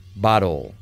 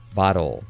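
The two takes are said the same way.

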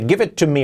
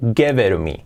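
First: The t sounds are pronounced as crisp, clear t's. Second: The t sounds become a soft, light r. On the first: The speaker calls it wrong. "nadie dice give it to me right now" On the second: The speaker calls it right. "se dice give it to me"

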